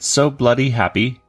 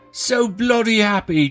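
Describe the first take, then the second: First: It is said in his normal American accent. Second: It is said in a put-on British accent.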